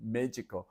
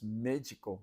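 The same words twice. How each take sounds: First: The D sounds soft, like a J. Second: The D sounds soft, like a J.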